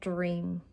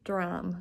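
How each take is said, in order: First: The vowel is a long 'ee' sound. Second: The vowel is an open 'a' sound. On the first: The speaker calls it wrong. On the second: The speaker calls it right.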